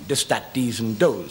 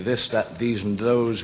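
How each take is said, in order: First: The th sounds are hard, close to d. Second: The th sounds are soft, like standard English. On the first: "we say this" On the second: "We don't say this"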